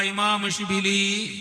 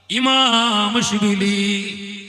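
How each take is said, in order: First: Said in the usual way. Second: ഇമാം Shibili drawn out very slowly and called louder. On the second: Shown as a demonstration. Preacher calling the saint's name out for the crowd to repeat, loud and drawn out. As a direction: stretch out ഇമാം Shibili loudly. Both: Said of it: "ഉറക്കെ പറ".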